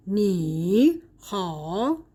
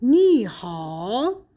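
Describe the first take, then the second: First: "نی" and "ها" as separate dipping third tones; unchanged tone three on both "نی" and "ها"; two third tones. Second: "نی ها" joined, "نی" in rising second tone, "ها" dipping; slowly drawn "نی ها", second tone then third; tone two plus three. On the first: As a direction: give "نی" and "ها" each a full dip, split by a pause. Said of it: "هر دو تون سه هستن". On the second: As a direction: link "نی ها" with the sandhi change to tones two-three. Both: Shown as a demonstration.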